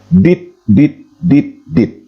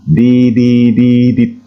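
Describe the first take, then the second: First: Each syllable is cut off by a short pause. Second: The syllables run together in one even breath. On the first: It stands for four separate letters, E. The speaker calls it wrong. "seolah-olah dia terpisah dan bersepasi" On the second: It stands for one letter, H. The speaker calls it right. "dilapaskan sekali napas dan tidak boleh terputus"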